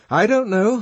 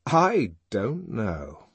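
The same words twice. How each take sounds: First: Much higher, louder admission; finally admitting ignorance. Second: Slow, drawn-out admission near usual pitch; slow pondering repeat. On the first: Helmholtz answering at last after silence, raised voice. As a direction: burst out with it, voice raised high. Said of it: "he said at last". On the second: Helmholtz repeating his admission to himself, slowly. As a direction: let each word sink in slowly. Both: A narrator's reading.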